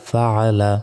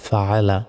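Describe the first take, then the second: The two takes are said the same way.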